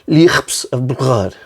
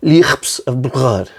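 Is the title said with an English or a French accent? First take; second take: French; French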